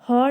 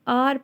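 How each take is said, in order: First: The word begins with an h sound. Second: The word begins with a vowel sound. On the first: The speaker calls it wrong. "इसको हम हॉर नहीं पढ़ेंगे" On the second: The speaker calls it right. "इसको आर पढ़ेंगे"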